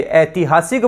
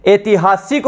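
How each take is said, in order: First: ऐतिहासिक with an open "ai" at the start, like "aitihasik"; corrected vowel. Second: ऐतिहासिक with a plain "e" at the start, like "etihasik"; misspelt vowel. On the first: Teacher gives the corrected word, ऐतिहासिक opening on wide "ai". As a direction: open the first vowel of ऐतिहासिक to "ai", near the "a" in "cat". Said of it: "बोलते हैं, मात्रा आएगी". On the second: Teacher reads out the misspelt word, ऐतिहासिक opening on plain "e". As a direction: say ऐतिहासिक as miswritten, opening on "ay" as in "day". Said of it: "ये भी गलत है". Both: Shown as a demonstration.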